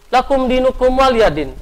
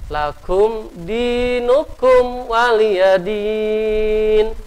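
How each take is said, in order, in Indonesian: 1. Dibacanya sangat cepat. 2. Dibacanya lambat, dengan vokal panjang. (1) "Cepat banget" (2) "Harus perhatikan hukum bacaan tajwidnya"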